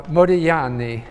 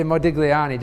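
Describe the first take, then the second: First: Modigliani said the Italian way, with no hard G; silent G. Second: Modigliani with an audible hard G before the L; pronounced G. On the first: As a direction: say the gli in Modigliani like "lyi", G silent. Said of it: "you don't pronounce the G". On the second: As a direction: sound the G in Modigliani, as in "dig-lee". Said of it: "just to be understood". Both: Shown as a demonstration.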